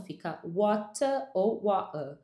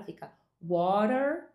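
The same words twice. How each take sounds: First: Water said slowly ending in uh, no R; slow British water without the R; no final R. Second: Water said slowly with a curled R at the end; slow American water, R pulled back; retroflex R. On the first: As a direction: stretch out water and drop the final R. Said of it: "no inglês britânico não". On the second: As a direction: stretch out water and curl the final R. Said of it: "R retroflexo no final". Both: Shown as a demonstration.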